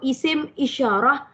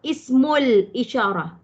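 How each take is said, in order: First: The first word ends in a stop, cut off. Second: The first word links into the next with -ul. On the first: "kalau kita baca isim, kita matikan dia" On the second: "nak sambung pun boleh"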